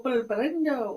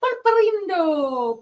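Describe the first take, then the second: First: Said in the usual way. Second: Pulparindo said slow and high; drawn-out Pulparindo. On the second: Shown as a demonstration. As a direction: stretch out Pulparindo playfully.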